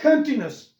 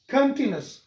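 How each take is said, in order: Both takes have the same delivery.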